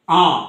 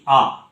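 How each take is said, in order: First: আ said through the nose, nasalised; nasal vowel. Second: Said in the usual way. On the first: Shown as a demonstration. Teacher demonstrating the nasal vowel to students. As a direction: let air out the nose on আ. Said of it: "এটাকে যখন আমি অনুনাসিক শব্দ করব". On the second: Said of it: "এইটা পুরো মৌখিক স্বরধ্বনি".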